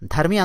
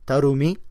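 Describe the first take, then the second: First: It starts with dh and has two syllables. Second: It starts with t and keeps three syllables. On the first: "మనమైతే ధర్మి ధర్మి అందాం మనం" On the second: "తమిళం ప్రొనౌన్సియేషన్లో అయితే తరుమి"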